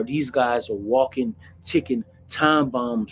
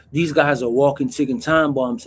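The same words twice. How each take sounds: First: Slowed down, each word weighed; slow emphatic. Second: Said in the usual way. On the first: Shown as a demonstration. Telling viewers about mentally ill inmates, slow and weighty. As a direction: drag it out so the warning sinks in.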